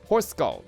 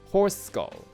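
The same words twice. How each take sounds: First: It is said in a put-on British accent. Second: It is said in the speaker's usual accent.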